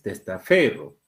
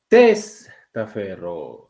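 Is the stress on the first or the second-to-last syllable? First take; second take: second-to-last; first. First: The stress is on the second-to-last syllable. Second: The stress is on the first syllable. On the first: The speaker calls it right. "es testaferro. Tiene una ligera elevación ahí... Sería una palabra grave" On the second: The speaker calls it wrong. "Tú no pronuncias testaferro. Ahí llevaría tilde en la tras antepenúltima"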